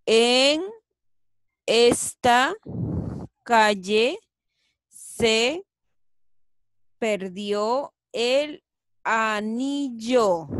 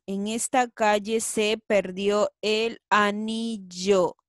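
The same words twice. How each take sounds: First: Loud, slow, separated words; word by word, louder. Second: Said in the usual way. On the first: Shown as a demonstration. Teacher rereads the sentence word by word, louder. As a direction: announce each word clearly. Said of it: "A ver". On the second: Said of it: "Muy bien".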